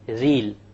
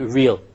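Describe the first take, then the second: First: The R is an Arabic tongue-tip R. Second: The R is an English mid-tongue R. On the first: The speaker calls it wrong. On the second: The speaker calls it right.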